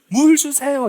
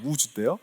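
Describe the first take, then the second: First: The l sound at the end is clearly pronounced. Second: The l sound is dropped and 'se' becomes 'dae'.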